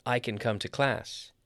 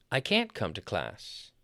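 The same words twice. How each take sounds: First: CAN light, main beat later in the sentence; unstressed CAN. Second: Slow, with CAN'T as the main beat; stress on CAN'T. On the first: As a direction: pass over CAN without stress. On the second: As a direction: hit CAN'T, then fall away. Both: Shown as a demonstration. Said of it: "We stress the word can't".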